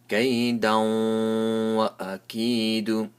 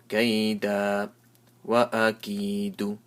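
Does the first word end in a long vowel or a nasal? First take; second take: nasal; long vowel. First: The first word ends nasally, merging into the next. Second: The first word ends in a stretched vowel, then stops. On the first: The reciter continues without stopping. "I make a nasal sound and also give a little sound of waw" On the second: The reciter stops after the first word. "So I stretch it for one alif"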